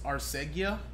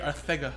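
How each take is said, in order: First: The consonant after 'Ar' is an s sound. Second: The consonant after 'Ar' is a th sound. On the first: The speaker calls it wrong. "You think of Arcega" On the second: The speaker calls it right. "kind of like how Mike Tyson would have said it"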